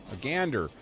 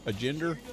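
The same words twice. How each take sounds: First: "A gander" with hard g and open a, falling; corrected hard g. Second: "A gender?" with a j sound and questioning lift; soft-g misreading. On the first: Streamer realizes the real word, stating "A gander" with hard g. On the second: Streamer tries to work out the word, asking "A gender?" with soft g. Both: Real, not acted. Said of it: "That's two different separate words".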